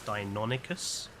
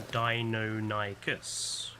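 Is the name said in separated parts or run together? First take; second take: run together; separated. First: The name is run together without separation. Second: The name is split into separate parts. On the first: This is the newer pronunciation heard since the 2000s. "where I've been hearing it being pronounced as Deinonychus" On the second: This is the older pronunciation from childhood magazines. "They always separated it to Deinonychus"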